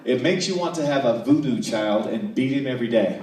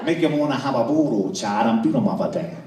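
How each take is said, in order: First: Clearly spelled-out translation, loud; every word of "voodoo child" and "every day" crisply separated; careful enunciation. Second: Put-on louder garbled New Orleans accent; thick, mushy Louisiana dialect, words run together; New Orleans waitress. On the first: Shown as a demonstration. Customer deciphering the waitress's words, clearly enunciated. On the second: Waitress repeating herself to a baffled customer, loud thick New Orleans accent. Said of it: "And she said".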